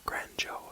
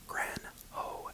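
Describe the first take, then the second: First: The middle consonant is a j sound. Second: The middle consonant is a breathy h sound.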